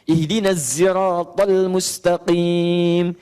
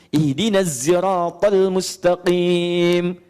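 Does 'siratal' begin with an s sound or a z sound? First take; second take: z; z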